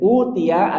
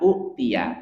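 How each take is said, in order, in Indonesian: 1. Vokal pertama dipanjangkan menjadi vokal panjang. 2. Vokal pendek diikuti hamzah. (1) "Kemudian utia" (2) "aslinya utia"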